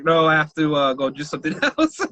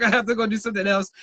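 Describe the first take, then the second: First: Said in the usual way. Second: Fast and laughing through it; hurried escape line, laughing; rushed, laughing. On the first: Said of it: "And I was like". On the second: Retold or imitated. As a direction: blurt it out quickly with a laugh. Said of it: "I was like".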